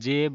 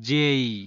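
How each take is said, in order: First: The vowel is a single plain eh sound. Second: The vowel glides, ending in an ee sound. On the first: The speaker calls it wrong. "কিন্তু এটার উচ্চারণ জে না" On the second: The speaker calls it right. "এটাকে বলা হয় জেই"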